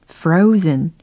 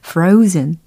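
The two takes are said the same way.

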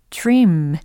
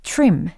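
First: The word is drawn out longer. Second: The word is said short and clipped.

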